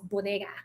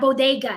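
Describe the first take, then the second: First: The word is said with a Spanish-style pronunciation. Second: The word is said with an anglicized pronunciation. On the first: The local community says it this way. The speaker calls it right. "it's bodega" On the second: Outsiders who gentrified the neighborhood say it this way. The speaker calls it wrong. "don't gentrify our stores. It's not bodega"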